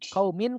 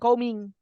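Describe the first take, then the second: First: The final n is pronounced clearly. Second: The final n becomes an ng sound. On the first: The speaker calls it right. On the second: The speaker calls it wrong.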